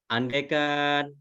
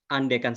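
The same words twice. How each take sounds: First: The word is drawn out and lengthened. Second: The word is short and firmly stressed. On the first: The speaker calls it wrong. "kurangi memanjangkan" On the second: The speaker calls it right. "cukup dengan penekanan dan atau andaikan saja"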